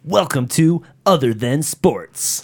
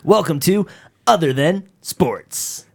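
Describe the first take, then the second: First: Slow arcade announcer; NBA Jam voice. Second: "Other Than Sports" higher and punched, slow; hitting the title. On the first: Co-host doing the show intro on request, NBA Jam announcer voice. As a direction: announce it like a sports video game. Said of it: "Sega Genesis N B A Jam voice". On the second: Co-host retrying intro after coaching, "Other Than Sports" hit hard. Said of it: "No, you gotta hit the". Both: Shown as a demonstration.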